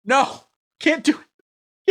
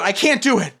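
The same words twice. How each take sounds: First: High, slow mock wail of defeat; mock anguish. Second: Said in the usual way. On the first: Streamer giving up on the requested accent, hammed-up wail. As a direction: stretch it into a hammed-up moan, high. Whining he can't be Chinese. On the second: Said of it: "No, I can't do it".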